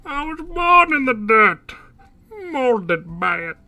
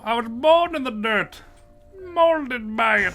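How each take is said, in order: First: Louder, muffled villain through a cup; Bane voice into a cup. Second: Lightly voiced Bane, slow menace; a hint of Bane growl; Bane impression. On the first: Retold or imitated. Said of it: "A cup just makes you sound like Bane". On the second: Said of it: "I used to do a great Bane impression".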